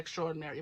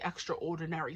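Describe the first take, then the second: First: It is said in an everyday, casual pronunciation. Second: It is said in a careful, clearer pronunciation. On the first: This is how the speaker normally says it. "I say extraordinary" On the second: It makes the word easy for listeners to recognize. "I wanted to say extraordinary so you knew the word I was saying"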